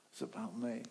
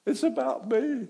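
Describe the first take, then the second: First: Quiet admission. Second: High, loud confession; loud admission. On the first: Jonah repeats his confession softly. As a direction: say it quietly, owning it. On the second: Jonah to the sailors, a high, loud confession. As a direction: cry out the guilt. Jonah admits the storm's cause. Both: Retold or imitated.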